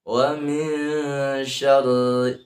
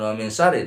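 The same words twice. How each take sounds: First: Slow chant, hummed min and doubled r; correct, held wa min syarri. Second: Plain quick min and short r in syarri; wrong, unheld wa min syarri. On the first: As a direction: draw out min, press the r of syarri. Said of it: "tapi wa min syarri". (wa min syarri benar, didengungkan pelan) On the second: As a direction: say wa min syarri without hum or held r. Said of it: "Jangan wa min syarri". (wa min syarri salah, tanpa dengung) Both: Shown as a demonstration.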